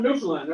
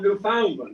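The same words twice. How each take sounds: First: The stress is not on the second syllable. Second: The stress is on the second syllable. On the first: The speaker calls it right. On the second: The speaker calls it wrong.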